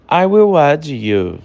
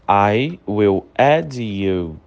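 First: Said in the usual way. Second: Slow, careful teacher model; very slow and lower. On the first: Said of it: "teacher models the phrase". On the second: Shown as a demonstration. Teacher repeats for students, very slow and lower. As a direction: spell it out slowly for learners, a bit lower. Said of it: "teacher repeats it for learners".

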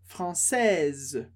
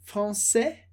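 First: "française" ending with a clear z; sounded S. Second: "français" with no final S; silent S. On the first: Teacher repeats the feminine, z sounded. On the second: Teacher repeats the masculine, S left silent. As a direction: say "français" ending on the vowel. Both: Shown as a demonstration. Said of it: "De novo a diferença".

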